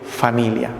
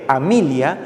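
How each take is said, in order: First: The word starts with an f sound. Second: The word starts with an h sound. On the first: This is how it is said today. "por decir familia" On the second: This is how it was said in colonial times. "la H también reemplazaba a la letra F"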